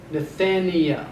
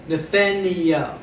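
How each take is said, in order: Both takes have the same delivery.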